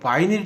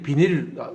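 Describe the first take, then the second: First: The first syllable is said as a diphthong 'bai'. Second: The first syllable is said as a plain 'bi'. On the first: This is the accurate original pronunciation. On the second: This is the everyday local form of the word.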